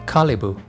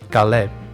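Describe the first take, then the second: First: It is pronounced the Arabic way. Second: It is pronounced the Spanish way. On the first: "with a and e sound Kalibu in Arabic" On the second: "with the g sound Caleb in Spanish"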